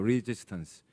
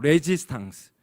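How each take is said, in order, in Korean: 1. 영어식 발음으로 하고 있어요. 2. 프랑스식 발음으로 하고 있어요. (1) "영어로는 리지스턴스죠" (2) "프랑스의 말로 발음을 하면 레지스탕스라 그러는데"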